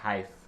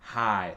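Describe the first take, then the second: First: The word ends with an F sound. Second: The word ends on a vowel, no final consonant. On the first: The speaker calls it wrong. "c'est pas hive, comme euh, on a vu avec le mot cough" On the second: The speaker calls it right. "il faut prononcer le H au début et ne prononce rien à la fin"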